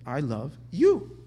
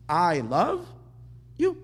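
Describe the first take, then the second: First: The word "you" carries the stress. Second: The word "I" carries the stress. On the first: The focus is on the other person. The speaker calls it right. "which means the you is huge" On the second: The focus is on oneself and one's own love. The speaker calls it wrong. "the you is small"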